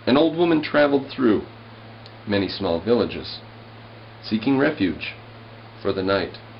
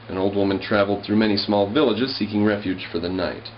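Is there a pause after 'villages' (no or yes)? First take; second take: yes; no. First: It pauses at each line break. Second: It runs on without line-break pauses. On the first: The lines are read as verse. "I'm going to read this with the breaks" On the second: The lines are read as prose. "just read it as if it were in a paragraph"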